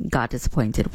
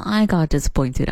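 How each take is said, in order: First: Said in the usual way. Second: "I" hit as the key word, correcting herself; stress on I. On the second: Shown as a demonstration. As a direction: lean on "I" to make it personal. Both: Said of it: "Well, I got disappointed".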